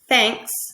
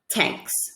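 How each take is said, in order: First: The word begins with a th sound. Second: The word begins with a t sound. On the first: The speaker calls it right. "instead of saying the word thanks" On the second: The speaker calls it wrong. "tanks with a T"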